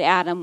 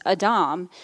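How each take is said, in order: First: Said in the usual way. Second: Adam with the stress on the end, ah-DAHM; Hebrew pronunciation. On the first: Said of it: "but what we see here is Adam". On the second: Shown as a demonstration. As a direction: say Adam as in Hebrew, long "ah" in the second syllable. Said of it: "what we see here is Adam".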